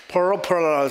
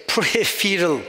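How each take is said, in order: First: Peripheral said as "puh-ROH-puh-ral", attempting American; American-accent pronunciation. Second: Peripheral said as "pree-FEE-rul"; tentative pronunciation. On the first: Teacher echoing the American's accent on peripheral, imitated "poro-puh-ral". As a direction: try an American "peripheral" with rounded, swallowed vowels. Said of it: "the American's accent". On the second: Teacher unsure how to say peripheral, tentatively pronounced "pree-FEE-rul". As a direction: try "peripheral" with a long ee in the middle. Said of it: "how do you say". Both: Shown as a demonstration.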